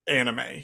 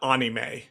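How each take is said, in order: First: The word is pronounced the usual way. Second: The word is pronounced in an unusual way. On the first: This is the accepted pronunciation. The speaker calls it right. "it's it's anime" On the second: Someone else said it this way. The speaker calls it wrong. "It's not anime"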